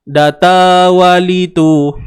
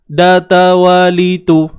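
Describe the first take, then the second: First: The short vowels are stretched a little too long. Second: Each short vowel is held for one beat. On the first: The speaker calls it wrong. "melirik tu. Kita tak perasan, terlebih sikit" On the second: The speaker calls it right. "Tu bunyi dia"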